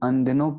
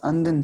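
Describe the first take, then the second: First: The word ends with an o vowel. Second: The word ends on the consonant n. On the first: This is how the word is read aloud. "पर हम अनदिनों पढ़ रहे थे" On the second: This is the word as written. "असल शब्द हमारे पास अनदिन था"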